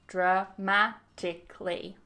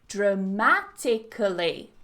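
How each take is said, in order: First: The word is said with four syllables. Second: The word is said with five syllables. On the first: "So with four syllables" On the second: "there's actually five syllables"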